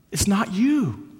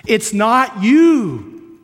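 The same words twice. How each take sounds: First: Said in the usual way. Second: "It's not you" louder, higher and very drawn out; emphatic repeat. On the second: Real, not acted. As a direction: stretch "you" loud and high, then let it fall. Same reassurance repeated for emphasis.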